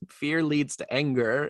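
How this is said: It is said in a Yoda-like voice.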